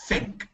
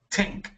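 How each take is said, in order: First: It begins with a soft th sound. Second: It begins with a hard t sound. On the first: The speaker calls it right. "tú quieres th" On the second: The speaker calls it wrong. "suena muy, mucho como T"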